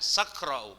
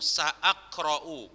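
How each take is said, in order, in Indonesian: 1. Sa langsung menyambung ke suku kata berikutnya. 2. Ada hamzah setelah sa sebelum aqra'u. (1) "bukan sakra'u" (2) "bacanya ini"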